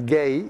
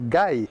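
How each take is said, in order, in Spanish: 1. Se dice como el 'gay' inglés, que rima con 'day'. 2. Se dice como 'guy', con la vocal 'ai' española.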